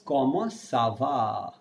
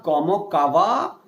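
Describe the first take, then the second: First: Como sava, slow and softer, s instead of k; soft s sound. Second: Como kava with a hard k at the start of kava; kava, a plain English k; wrong hard k. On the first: Teacher models the correct French greeting gently. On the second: Teacher shows the wrong reading, said plainly. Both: Shown as a demonstration. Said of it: "This makes the ka as sa".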